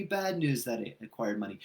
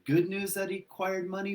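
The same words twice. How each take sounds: First: Gloomy bad-news question. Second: Asked high on good news; hopeful good-news question. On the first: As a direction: set it down like the gloomy reading. Weighing good versus bad news. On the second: Speaker weighing the money as good news, high question. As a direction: lift it like the hopeful reading. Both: Shown as a demonstration.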